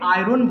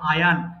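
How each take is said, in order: First: The r is pronounced in the middle of the word. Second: It is said with no r sound at all. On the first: This is how it is commonly said locally. The speaker calls it wrong. "আয়রনকে আমরা বলি আয়রন বলি" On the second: This is the British way of saying it. The speaker calls it right. "যদি British follow করেন আয়ান"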